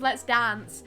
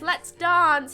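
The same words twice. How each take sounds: First: Dance is said with an American vowel. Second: Dance is said with a British vowel. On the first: This is how it is usually said. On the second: This is how the character says it.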